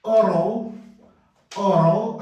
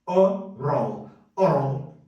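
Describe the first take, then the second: First: Oral said slowly with both schwas, O-rəl; careful slow model. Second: Oral run together fast as O-rol; said quickly. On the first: Teacher carefully models oral for the class. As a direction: give each sound of oral its room. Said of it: "aqui nós vamos falar com som de A também". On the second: Teacher shows oral spoken fast. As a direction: clip oral short and quick. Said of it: "falado bem rápido". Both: Shown as a demonstration.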